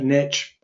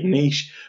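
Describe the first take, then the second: First: It is said the American way. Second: It is said the British way.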